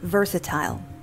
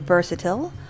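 First: It is said with a British pronunciation. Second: It is said with an American pronunciation. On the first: "whereas the British is versatile" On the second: "Americans would say versatile"

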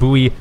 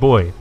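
First: It is said with the American pronunciation. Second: It is said with the Canadian pronunciation. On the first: "that's the American pronunciation" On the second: "I go with the Canadian pronunciation of boy"

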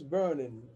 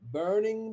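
First: The final g sound is dropped. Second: The ending keeps its final g sound.

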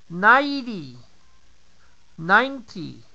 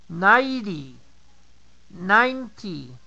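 The two takes are said the same way.

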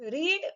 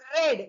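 First: The vowel is a long 'ee' sound. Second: The vowel is a short 'eh' sound. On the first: It is the present tense form. "વાંચવું એટલે રીડ" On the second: It is the past tense form. "બોલાય રેડ. આપણે લાલ માટેનો રેડ બોલીએ એવી રીતે"

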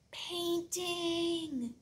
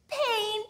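First: The word is said very quietly. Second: The word is said very loudly.

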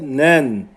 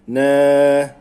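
First: The word ends with an n sound. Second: The word ends with a lengthened vowel. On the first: The word is read without stopping on it. "Normalde nen" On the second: The reader stops on the word. "Uzatıp duruyoruz"

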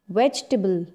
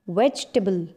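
First: The word is said with three syllables. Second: The word is said with three syllables.

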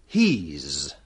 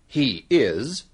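First: The two words are joined into one syllable. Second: Both words are said fully and separately. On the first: The speaker calls it right. "but he's" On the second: The speaker calls it wrong. "kita tidak mengatakan"

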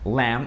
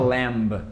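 First: The word ends with an m sound. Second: The word ends with a b sound. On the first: The speaker calls it right. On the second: The speaker calls it wrong.

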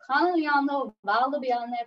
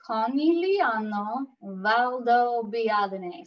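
First: The name is said at normal speed. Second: The name is said slowly and carefully.

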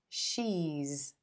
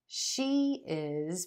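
First: The words are merged into one contracted syllable. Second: Two separate words are said in full.

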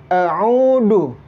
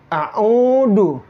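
The two takes are said the same way.

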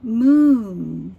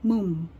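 First: The word ends with a clear n sound. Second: The word ends with the lips closed. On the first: The speaker calls it right. "这个要念moon" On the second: The speaker calls it wrong. "直接闭起来moon，那这样就念错咯"

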